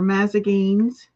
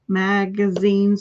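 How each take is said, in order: First: The word is said with the g and z swapped. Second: The word is said with the standard g-z order.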